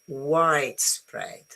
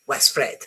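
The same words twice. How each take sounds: First: The stress is on the first part. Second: The stress is on the second part. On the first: The speaker calls it right. "So the primary stress is on the first one" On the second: The speaker calls it wrong.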